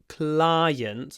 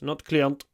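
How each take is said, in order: First: The first vowel starts with an open ah sound. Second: The first vowel does not start with ah. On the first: The speaker calls it right. "Make sure that you start with an a sound" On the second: The speaker calls it wrong.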